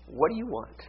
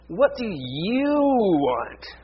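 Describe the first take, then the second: First: The word 'you' is said short and plain. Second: The word 'you' is drawn out and lengthened.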